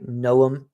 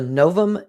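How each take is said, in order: First: The middle is said with a U sound. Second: The middle is said with a V sound. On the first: The speaker calls it right. "you don't pronounce the V's. it would kind of sound like a U" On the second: The speaker calls it wrong. "Don't know if I'm pronouncing that right"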